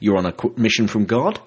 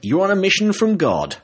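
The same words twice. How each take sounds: First: The voice rises at the end. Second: The voice falls at the end. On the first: The speaker is asking. The speaker calls it right. "if I put that emphasis on it, it sounds better" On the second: The speaker is stating a fact. The speaker calls it wrong. "Oh, sorry. Yes, I think that was a question"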